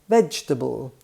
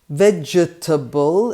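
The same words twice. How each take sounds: First: The second vowel is dropped. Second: Every syllable is pronounced.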